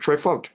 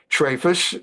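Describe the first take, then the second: First: The word ends with a t sound. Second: The word ends with an s sound.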